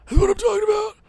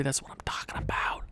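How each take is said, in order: First: Very high, put-on little voice; squeaky celebration. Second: Hushed, voiceless whisper; whispered celebration. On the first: Gamer savoring a big win, squeaky celebration. Same words again, high voice. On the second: Acted. Gamer savoring a big win, whispered celebration. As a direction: whisper it to yourself.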